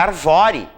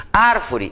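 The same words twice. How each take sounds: First: "arvore" stressed on VO, drawn out; accent removed. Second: "Árvore" stressed on the first syllable; accented first syllable. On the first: Teacher shows the word without its accent, stress on VO. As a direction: shift the beat to the middle, ar-VO-re. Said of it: "fica arvore". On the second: Teacher gives the accented word, stressed on the first syllable. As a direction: say "Árvore" with the beat on ÁR. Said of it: "Eu não tenho essa palavra em língua portuguesa". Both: Shown as a demonstration.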